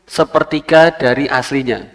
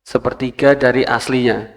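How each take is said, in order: No difference in how they are said.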